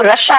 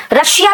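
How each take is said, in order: First: रशिया said short as ra-sha, the i swallowed; corrected रशिया, close to English Russia; correct version. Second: रशिया said ra-shi-ya with a full middle i; wrong version. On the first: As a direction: clip रशिया to two syllables, ra-sha. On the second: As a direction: stretch रशिया into ra-shi-ya, three syllables. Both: Shown as a demonstration. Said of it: "रशिया भी नहीं है".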